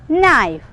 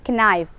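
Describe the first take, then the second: First: The word begins with an N sound. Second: The word begins with a K sound. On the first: The speaker calls it right. "We are pronounced as knife" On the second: The speaker calls it wrong. "There is no need to read knife"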